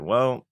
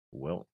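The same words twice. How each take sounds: First: Said in the usual way. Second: Soft low well. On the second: Real, not acted. Second "well", softer and lower.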